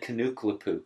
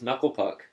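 First: The name is said with four syllables. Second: The name is said with three syllables.

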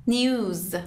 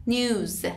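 Both takes have the same delivery.

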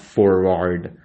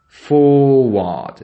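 First: The R sounds are pronounced after the vowels. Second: The R sounds are silent after the vowels. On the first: The speaker calls it wrong. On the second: The speaker calls it right.

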